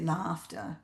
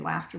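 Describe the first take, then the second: First: The word is said with a British pronunciation. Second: The word is said with an American pronunciation. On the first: "They say laughter" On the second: "They don't say laughter"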